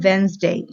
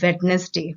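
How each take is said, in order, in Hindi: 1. बीच में कोई d ध्वनि सुनाई नहीं देती। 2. बीच में d ध्वनि सुनाई देती है। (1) "हम डी प्रोनाउंस नहीं करते" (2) "हम इंडियंस ज्यादातर बोलते हैं वेडनेसडे, जो कि गलत है"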